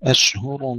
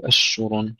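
First: أشهر with an audible h after the sh; clear ha. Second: أشهر with the h swallowed by the sh; lost ha. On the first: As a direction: say أشهر slowly, keeping the h distinct from sh. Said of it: "ننتبه إلى الهاء لا تضيع". (أشهر بهاء واضحة بعد الشين) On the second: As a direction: let the sh spread over the h in أشهر. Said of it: "ننتبه إلى الهاء لا تضيع مع تفشي الشين، لا نقول". (أشهر بهاء ضائعة في تفشي الشين) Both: Shown as a demonstration.

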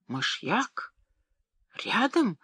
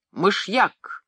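First: Мышьяк asked softly with a rise, then Рядом much higher in alarm; shocked exclamation. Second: Мышьяк stated with a falling, weighty finish; grim pronouncement. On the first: Wife hearing about the arsenic, shocked question. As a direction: gasp it out in disbelief. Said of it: "воскликнула госпожа Оме". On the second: Pharmacist naming the poison to the boy, grim statement. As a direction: drop the word like a verdict. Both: A narrator's reading.

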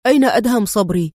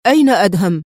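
First: Fast, louder demand; clipped, urgent question; stern demand. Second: Louder insistent demand; forceful repeated question; sterner repeat. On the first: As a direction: press him for an answer. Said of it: "يقول في صرامة". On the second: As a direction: repeat it harder, no patience left. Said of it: "يكرر سؤاله في صرامة". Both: A narrator's reading.

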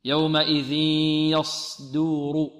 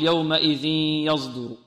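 First: Slow recited يومئذ يصدر with a pure heavy ص; measured chant, no z in يصدر; correct clear s. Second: Slow recited يومئذ يصدر with ص voiced toward z; wrong z-like s. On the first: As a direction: hold a hissed, voiceless ص in يصدر. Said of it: "في رواية الإمام". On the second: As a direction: mistaken buzzing yazduru for يصدر. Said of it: "وهذا خطأ". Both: Shown as a demonstration.

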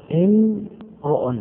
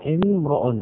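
First: امرؤ stretched slowly with a higher pitch; drawn-out word. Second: Said in the usual way. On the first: Shown as a demonstration. Teacher to students, drawing out امرؤ slowly. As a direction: drag out امرؤ to show its first sound. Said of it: "الميم ساكنة". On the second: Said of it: "الميم ساكنة والهمزة همزة".

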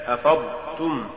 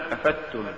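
First: Said in the usual way. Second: أفدتم said "afattum", ض lost into ت; faulty reading of أفضتم as "afattum"; mispronounced ض. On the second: Shown as a demonstration. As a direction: say أفدتم with a doubled light t. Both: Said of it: "تقرأ لحنا".

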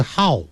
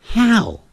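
First: "how" said short with a half-open mouth; wrong narrow "how". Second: "how" with the mouth wide open, long vowel; right open "how". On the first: Teacher showing the mistake in how, narrow vowel. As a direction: keep "how" small and narrow. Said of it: "不是how". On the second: Teacher modelling how for learners, exaggerated open vowel. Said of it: "记住，how不是how". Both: Shown as a demonstration.

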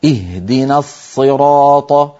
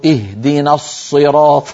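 First: Slow الصراط with a heavy ṣād, lips unrounded; الصراط drawn out, emphatic and lips still; teacher's correct ṣād. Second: Slow الصراط with the lips pushed forward; الصراط with pouted lips as a student once recited it; rounded-lip ṣād. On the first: The old sheikh correcting him, slow and careful. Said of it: "فكان يقول لي". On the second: Retelling his own mistake before his teacher, lips pursed. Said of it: "فزممت شفتي هكذا إلى الأمام". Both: Retold or imitated.

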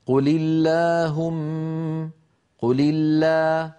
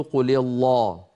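First: "قل الله" slow, thin L and long fronted aa; light alif. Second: "قل الله" with dark L and backed aa; wrongly heavy alif. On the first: Teacher models the correct light alif, drawn out. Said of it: "ولا نقول قل الله". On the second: Teacher shows what we don't say, heavy alif. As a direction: thicken "الله" as the mistake. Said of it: "ولا نقول". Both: Shown as a demonstration.

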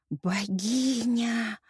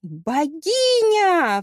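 First: Slow, drawn-out awe; rapt admiration. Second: Drawn-out cry, high and loud; exclaimed cry. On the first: Hero adoring the woman before him, rapt and drawn-out. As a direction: breathe out the word in long, held wonder. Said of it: "восхищенно произнёс он". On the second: Hero hailing a supposed goddess, high loud cry. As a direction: cry it out at full voice, stretching the middle. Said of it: "вскричал тот". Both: A narrator's reading.

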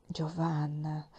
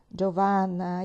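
First: "Giovanna" said softly and slowly, dropping low; soft calling. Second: Said in the usual way. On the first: Acted. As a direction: call her name gently and slowly. ("Giovanna" detto piano, lento e basso) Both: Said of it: "mi sussurrò il vescovo".

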